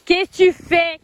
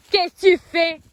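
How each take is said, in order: First: Loud, high scolding; scolding shout. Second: Loud, high scolding repeated; scolding shout. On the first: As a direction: call out sharply at the horse. Scolding the horse. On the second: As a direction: call out sharply again. Scolding the horse again. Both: Real, not acted.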